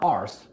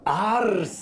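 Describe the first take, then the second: First: The name is said as one syllable. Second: The name is said with two syllables. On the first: The speaker calls it wrong. "It's not arse, which is how they pronounced it" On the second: The speaker calls it right. "would you pronounce it for me again?"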